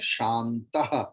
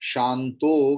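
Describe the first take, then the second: First: The word ends in a breathy h sound. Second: The word ends in an o vowel. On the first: The speaker calls it right. "विसर्ग लगा दीजिए" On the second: The speaker calls it wrong. "ओकार को काट के विसर्ग लगा दीजिए"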